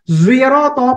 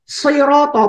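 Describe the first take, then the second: First: The word begins with a z sound. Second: The word begins with an emphatic s sound. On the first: "pakai zain dengan munyung sedikit" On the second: "pakai sot"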